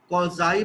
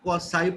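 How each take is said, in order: First: The middle consonant is a buzzing z sound. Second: The middle consonant is a hissing s sound. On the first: "कुछ लोग कौजाई पढ़ते हैं" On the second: "कुछ लोग कौसाई पढ़ते हैं"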